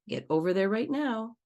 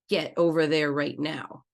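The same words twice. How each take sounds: First: The tone is only mildly harsh. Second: The tone is harsh but slightly softer. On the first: "Maybe a yellow tone of voice" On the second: "Let's say it in an orange tone of voice"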